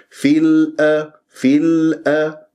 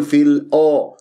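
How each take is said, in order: First: Slow في الأ with thin, clean a; light hamza. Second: في الأ with a dark, backed a; wrong heavy hamza. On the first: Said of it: "أبين لك أنا التخليص". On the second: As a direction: thicken the hamza of الأ into aw, as a mistake. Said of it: "ولا أفخم الهمزة". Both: Shown as a demonstration.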